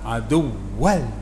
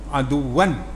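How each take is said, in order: First: The word ends with an L sound. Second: The word ends with an N sound. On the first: The speaker calls it right. "masuk dalam rumah lam terus" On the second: The speaker calls it wrong. "jangan sebut nun"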